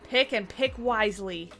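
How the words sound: It sounds aggressive and stern.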